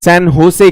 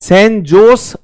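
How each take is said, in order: First: सैन होसे with the J said as H, the Spanish way; Spanish-style होसे, H not J; Spanish pronunciation. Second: सैन जोस with a hard J, the Indian way; Indian-style जोस with a J; Indian pronunciation. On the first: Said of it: "जे को वो ह की तरह pronounce करते हैं". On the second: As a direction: say जोस with a plain J sound. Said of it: "हम कहेंगे भारतीय". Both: Shown as a demonstration.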